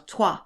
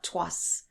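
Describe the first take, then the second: First: It ends on the vowel, no final s. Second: It ends with a sounded final s. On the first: The speaker calls it right. "you know, toi" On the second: The speaker calls it wrong. "not tois"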